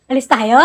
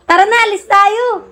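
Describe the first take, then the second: First: Lower-pitched, casual asking; low, understated invitation; low-key question. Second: High-pitched coaxing, falling at the end; high, lilting invite to go; coaxing invitation. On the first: Same invitation asked lower. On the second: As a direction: coax them up in a high voice. Coaxing the sleepy one to go. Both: Real, not acted.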